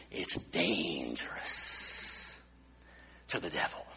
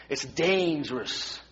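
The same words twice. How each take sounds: First: Much lower, softer, very slow and ominous; it's dangerous said low, soft and slow like a dark secret; dramatic warning. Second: Said in the usual way. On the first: Acted. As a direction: drop the voice way down on the warning.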